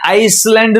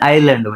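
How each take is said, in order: First: An s sound is pronounced before the l. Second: No s sound is pronounced before the l. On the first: The speaker calls it wrong. "નો વચાય" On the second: The speaker calls it right. "વચાય"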